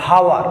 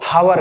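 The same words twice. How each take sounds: The two takes are said the same way.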